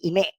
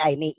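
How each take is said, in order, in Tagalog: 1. Nagsisimula ang pangalan sa tunog na 'ee'. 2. Nagsisimula ang pangalan sa tunog na 'ay'. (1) "ang pronunciation talaga ng pangalan niyan" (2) "hindi Aimee"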